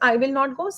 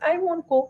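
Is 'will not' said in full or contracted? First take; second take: full; contracted. First: Will and not are said as two full words. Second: Will and not are joined into one short word. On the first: "I will use" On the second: "Sometimes I will choose"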